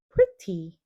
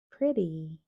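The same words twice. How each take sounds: First: The middle consonant is a crisp t sound. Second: The middle consonant is a soft d sound. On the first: The speaker calls it wrong. "no dirías pretty" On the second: The speaker calls it right. "el sonido de la T suena como una D suave"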